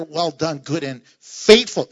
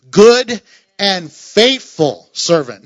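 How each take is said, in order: First: Said in the usual way. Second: "Good" を強く、ゆっくり大きく言う; stress on Good, slow and loud. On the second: Shown as a demonstration. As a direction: weigh each word, slow and loud. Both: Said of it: "No, notice this".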